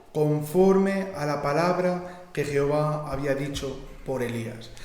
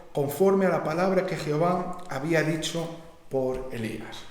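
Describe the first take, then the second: No difference in how they are said.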